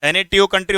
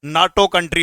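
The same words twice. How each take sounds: First: एन ए टी ओ spelled letter by letter, the wrong way; teacher demonstrates एन ए टी ओ spelled out wrongly; wrong reading, spelled out. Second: नाटो said as a single word, naa-to; teacher gives the correct नाटो, naa-to, as one word; right reading, one word. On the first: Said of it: "क्या मैंने सही बोला ये?". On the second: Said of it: "नाटो country होता है". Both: Shown as a demonstration.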